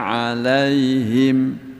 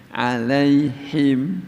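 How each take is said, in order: The two takes are said the same way.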